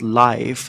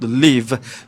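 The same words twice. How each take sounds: First: The word does not rhyme with 'sleeve'. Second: The word rhymes with 'sleeve'. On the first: This is how most readers take the written word. The speaker calls it wrong. "people, when they see the word live, L I V E, uh, they will pronounce it as" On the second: It plays on the double meaning of live and leave. The speaker calls it right. "what I intended for the script is for it to be called"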